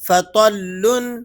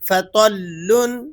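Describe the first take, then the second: No difference in how they are said.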